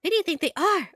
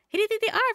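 First: "do" leaned on, falling at the end; questioning with weight on "do"; stress on do. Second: "are" lifted high, light and bright; higher, lighter reread; higher question. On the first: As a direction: push the "do", let it drop. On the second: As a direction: toss it up on "are". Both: Shown as a demonstration. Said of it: "same line read twice".

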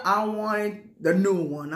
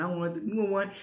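First: Slow, leaning hard on "new"; stress on new. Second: Said in the usual way. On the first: Real, not acted. Shopper insisting on the newest model, stressing "new". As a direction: draw out "new one" with weight.

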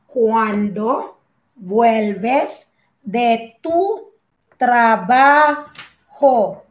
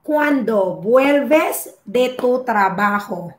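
First: Very slow "cuándo vuelves de tu trabajo", paused between words; slow dictation. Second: Said in the usual way. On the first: Shown as a demonstration. Teacher repeating the example for learners, very slowly in pieces. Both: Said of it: "Okay, ejemplo".

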